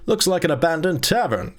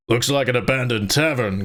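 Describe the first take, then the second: First: Said in the usual way. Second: Gorth. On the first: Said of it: "Oh, excuse me, Gorth". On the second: Acted. Reader correcting himself to voice a companion in the tavern, put-on voice. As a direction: drop into a companion's level, altered voice. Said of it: "Gorth said".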